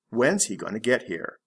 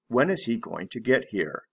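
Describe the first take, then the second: First: Is is contracted onto when. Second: Is is said as a separate full word.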